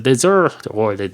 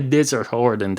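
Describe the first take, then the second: First: The first word sounds like the sweet course dessert. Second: The first word sounds like the sandy desert. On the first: An island that is deserted. The speaker calls it right. "It's a dessert Ireland, as in deserted" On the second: An island in a dry, sandy wasteland. The speaker calls it wrong. "It's not a desert Ireland"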